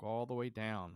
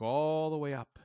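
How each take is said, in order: First: Stretched "all" at ordinary pitch, falling; downward sweep. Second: Higher, louder, stretched "all" arching upward; upward sweep. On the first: Climber looks down the pole, stretched falling "all". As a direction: draw out "all" and let it sink on "down". Contrast with looking up. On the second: Climber looks up the pole, high stretched "all". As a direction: stretch out "all" high and loud to picture height. Pitch pictures looking up the pole. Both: Retold or imitated.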